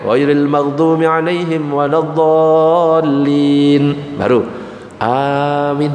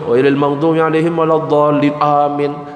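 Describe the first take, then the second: First: A pause of about three seconds precedes amin. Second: Amin follows immediately with no pause. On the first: The imam is allowed to breathe first. The speaker calls it right. "jeda sejenak baru bareng nanti ya. Ya tiga detik lah ya" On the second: The congregation responds before the imam has breathed. The speaker calls it wrong. "jangan langsung ya"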